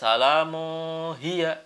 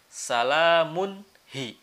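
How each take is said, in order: First: The n sound is left out. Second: The n sound is clearly pronounced. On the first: The speaker calls it wrong. "Nggak boleh salamu hiya" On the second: The speaker calls it right. "tanwinnya harus jelas nunnya"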